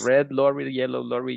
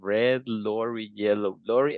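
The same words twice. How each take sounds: First: The phrase is said very quickly. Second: The phrase is said slowly. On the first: "Like say it like very fast" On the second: "you have to learn to say it slow"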